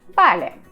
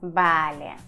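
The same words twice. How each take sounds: First: It is calm, with the pitch falling. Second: It is long and drawn out. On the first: The speaker is skeptical or doubtful. "Спокойно, с понижением" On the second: The speaker is sarcastic or irritated. "Длинное, растянутое"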